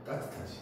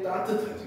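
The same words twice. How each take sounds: First: 따뜻하지 whispered, breath only; 따뜻하지 in a hushed whisper to the class. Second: Said in the usual way. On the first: Shown as a demonstration. Teacher repeats answer softly.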